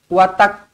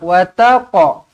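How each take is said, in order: First: The final q stops flat with no bounce. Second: The final q is released with a slight bounce. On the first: The speaker calls it wrong. "tak nak watak" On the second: The speaker calls it right. "Lantunkan qalqalah, qalqalah sughra"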